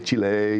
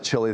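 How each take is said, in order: First: The name is said with Spanish sounds. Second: The name is said with English sounds. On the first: "be a little more Spanish about it" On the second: "is it okay to pronounce it Chile?"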